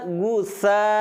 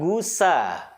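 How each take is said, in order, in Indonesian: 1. Konsonan di tengah adalah th yang lembut. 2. Konsonan di tengah adalah s biasa.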